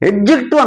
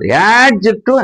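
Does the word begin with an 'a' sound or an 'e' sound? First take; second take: e sound; a sound. First: The first vowel sounds like the 'e' in 'bed'. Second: The first vowel sounds like the 'a' in 'bad'. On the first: The speaker calls it wrong. "ఎడ్జెక్టివ్ అని కాదు" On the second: The speaker calls it right. "యాడ్జెక్టివ్ అని అన్నారు"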